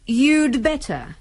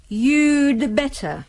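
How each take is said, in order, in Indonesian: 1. Cepat, dengan 'had' disingkat menjadi 'd'. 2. Cepat, dengan 'had' disingkat menjadi 'd'.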